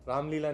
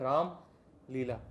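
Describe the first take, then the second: First: The two parts run together without a pause. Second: There is a pause between the two parts. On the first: The speaker calls it wrong. "Ramlila नहीं बोलते" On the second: The speaker calls it right. "Hyphen में pause लेना पड़ता है ना। Hyphen में बोलते हैं राम लीला"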